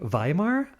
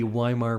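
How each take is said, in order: First: The name begins with a V sound. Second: The name begins with a W sound.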